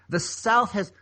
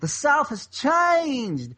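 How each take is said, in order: First: It is said in the speaker's normal voice. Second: It is said imitating the Alabama lawyer's voice.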